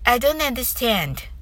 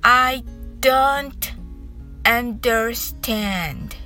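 First: The phrase is said quickly. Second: The phrase is said slowly. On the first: "次に早く言ってみましょう" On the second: "まずゆっくり練習してみましょう"

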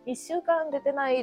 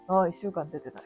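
First: It is said in a light, casual way. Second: It is said in a weary, troubled way. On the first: The speaker calls it wrong. "そういう言い方じゃないな" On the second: The speaker calls it right. "ってだるいと思う。もうどうしよう、みたいな。"

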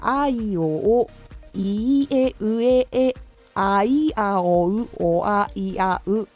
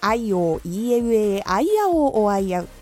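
First: It is read slowly. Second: It is read at a normal, quick pace.

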